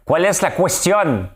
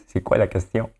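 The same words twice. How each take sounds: First: Put-on loud, high, drawn-out Spanish-accented French; mock Spanish-French accent. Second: Said in the usual way. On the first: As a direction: proclaim it slowly in a hammed-up Spanish accent. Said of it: "Avec, euh, mon accent espagnol, français". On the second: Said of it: "Avec, euh, mon accent espagnol".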